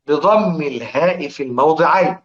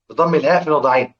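First: Said slowly, every word drawn out; slow and deliberate, for students to follow; slow reading. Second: The same phrase rattled off quickly; fast, run-together repeat; quick reading. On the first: (نطق بطيء متأنٍ) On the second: (نطق سريع متصل) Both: Shown as a demonstration. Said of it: "اقرأوا كده اهو".

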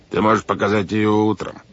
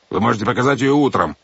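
First: Feigned soothing. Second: Raised, irritated refusal; angry. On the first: Captain puts off the boy's note, falsely soothing. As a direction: pretend to calm a child down. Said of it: "деланно успокаивающим тоном". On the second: Captain loses patience with the children, angry. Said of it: "разозлился капитан Шем". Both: A narrator's reading.

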